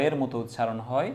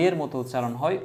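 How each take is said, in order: Both takes have the same delivery.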